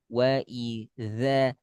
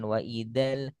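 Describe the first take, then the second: First: The second word has a z sound. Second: The second word has a d sound. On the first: The speaker calls it right. "kasih celah" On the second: The speaker calls it wrong. "bukan wa idal"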